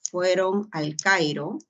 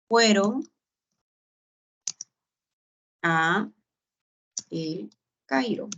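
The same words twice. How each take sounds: First: "al Cairo" run together as one word, a bit slower; contracted form. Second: "fueron" "a" "El Cairo" said apart, with long pauses between; correct form. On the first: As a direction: blend "al Cairo" into one smooth piece. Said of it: "En consecuencia". ("al Cairo" contraído y ligado, algo lento) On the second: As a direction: keep "a" and "El Cairo" separate, pausing after each. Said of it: "Esta es la expresión correcta". ("a" y "El Cairo" separados con pausas largas) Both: Shown as a demonstration.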